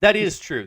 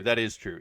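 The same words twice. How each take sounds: First: That is true, said loud and high; bursting out with that is true; eager loud yes; emphatic agreement. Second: Said in the usual way. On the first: Real, not acted. Laughing agreement with co-host.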